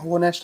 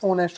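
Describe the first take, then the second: First: The word begins with an h sound. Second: The word begins with a vowel sound. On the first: The speaker calls it wrong. "होनेस्ट नहीं होता" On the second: The speaker calls it right. "ऑनेस्ट होता है। ... इसमें एच silent हो गया"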